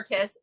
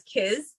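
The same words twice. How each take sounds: First: Said in the usual way. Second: "kiz" with a buzzing z in place of the s of kiss; caveman mispronunciation. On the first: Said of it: "for kiss". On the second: Retold or imitated. Caveman Ed says "kiz" to Beth, buzzing z. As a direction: say "kiz" short, ending on a voiced z. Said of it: "for kiss, he says".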